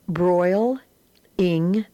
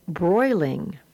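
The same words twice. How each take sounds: First: Broil-ing spoken as broil then ing with a lift; Broil-ing sounded out for the class; split in syllables. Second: Said in the usual way. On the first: Shown as a demonstration. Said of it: "read the words as two syllables". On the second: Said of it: "and then as the whole word".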